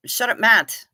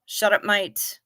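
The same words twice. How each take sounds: First: Said in the usual way. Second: "Mate" said Aussie-style as "mite"; Aussie accent. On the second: Shown as a demonstration. Reading a viewer's Aussie line in an Aussie accent.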